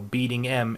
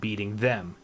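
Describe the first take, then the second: First: The th is dropped, leaving only 'em'. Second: The th at the start of them is pronounced. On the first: The speaker calls it right. "Cutting off the th means cutting out a consonant" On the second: The speaker calls it wrong. "would not mesh as well"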